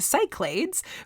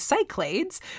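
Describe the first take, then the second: First: The word is pronounced the American way. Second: The word is pronounced the American way.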